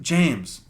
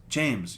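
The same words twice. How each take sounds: First: Mild mock call of the name, louder; calling a kid sharply, mom-style; mom yelling. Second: Said in the usual way. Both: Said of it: "the mom keeps yelling at them".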